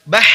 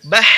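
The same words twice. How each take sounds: First: Bah with the h chopped short; cut-off h. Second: Bah with the final h breathed out long; flowing h. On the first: Teacher showing the wrong way, h cut short. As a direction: stop the h in bah abruptly. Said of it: "jangan bah gitu". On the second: Teacher showing the right way, h let flow. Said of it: "Tapi dialirkan". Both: Shown as a demonstration.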